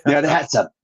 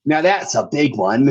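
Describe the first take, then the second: First: Put-on Australian accent. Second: A hint of an Aussie accent, pushing on; lightly put-on Aussie twang; Australian accent. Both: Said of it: "the first thing I'm just like".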